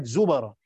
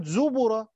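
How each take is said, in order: First: Zubara, b given a fatha. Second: Slow higher zubura, b with damma. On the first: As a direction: open the b to a in zubara. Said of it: "قراءة فتح". (زُبَرًا بفتح الباء) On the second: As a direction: round the b to u in zubura. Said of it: "بضم الباء". (زُبُرًا بضم الباء) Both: Shown as a demonstration.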